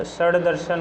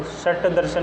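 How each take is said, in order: First: षड दर्शन with a voiced retroflex d closing षड; correct voiced ending. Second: षट दर्शन with a hard retroflex t closing षट; unvoiced t at the end of षट; wrong voiceless ending. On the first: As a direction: say षड दर्शन as shad-darshan. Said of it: "षड दर्शन होता है". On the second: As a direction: say षट दर्शन as shat-darshan. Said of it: "षट दर्शन नहीं होता". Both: Shown as a demonstration.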